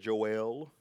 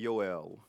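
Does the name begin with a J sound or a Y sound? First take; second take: J sound; Y sound. First: The name begins with a J sound. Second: The name begins with a Y sound. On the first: The speaker calls it wrong. "Some people said Joel" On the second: The speaker calls it right. "if you want to do it properly, you say Yoel"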